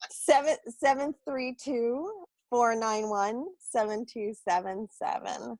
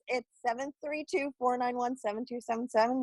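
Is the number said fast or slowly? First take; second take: slowly; fast. First: The number is said slowly. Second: The number is said fast.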